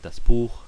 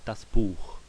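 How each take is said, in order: First: The final ch sound is soft and ordinary. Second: The final ch sound is strongly exaggerated. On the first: "if I said it normally" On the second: "I'm just saying that as an emphasis"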